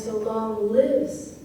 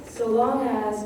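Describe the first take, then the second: First: Slow "so long lives", LIVES fully stressed; emphasis on LIVES. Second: "as" light and quick after "long"; offbeat skipped over. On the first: Teacher contrasting with the offbeat, LIVES weighted and slow. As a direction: give "lives" its own strong, drawn-out beat. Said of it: "that's a word that takes some emphasis". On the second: Teacher showing the offbeat, "as" unstressed. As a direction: skip easily over "as" in "so long as". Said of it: "you sort of skip over quite easily". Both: Shown as a demonstration.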